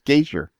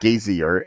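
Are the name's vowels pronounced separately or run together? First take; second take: run together; separately. First: The vowels run together, rhyming with Frazier. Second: Each vowel in the name is pronounced separately. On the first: The speaker calls it right. "it's Gazier" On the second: The speaker calls it wrong. "rather than pronouncing the vowels"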